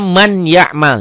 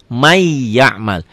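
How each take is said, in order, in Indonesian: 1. Bunyi n diucapkan sebelum y. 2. Bunyi n dihilangkan, sehingga y menjadi ganda. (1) "Ditulisnya man ya'mal" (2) "dibacanya di may, jadi double double y ya. N-nya hilang"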